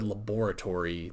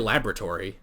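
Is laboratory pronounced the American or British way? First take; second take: British; American. First: It is said with a British pronunciation. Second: It is said with an American pronunciation. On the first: This is not how the speaker normally says it. "I've never said laboratory, like, ever" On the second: This is how the speaker normally says it. "I say laboratory"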